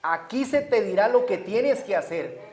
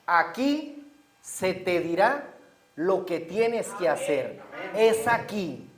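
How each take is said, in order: First: Said in the usual way. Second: Slow, drawn-out and deliberate; slow emphasis. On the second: Shown as a demonstration. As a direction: let every word land slowly. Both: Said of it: "quiero que se enfoquen en esto".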